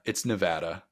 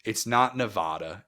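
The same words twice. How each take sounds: First: Nevada with a short a like cat, Nev-A-da; Nevada with the flat a; right Nevada. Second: Nevada with a broad ah in the middle, Nev-AH-da; Nevada mispronounced with a long ah; wrong Nevada. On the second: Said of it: "Don't say Nevada". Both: Shown as a demonstration.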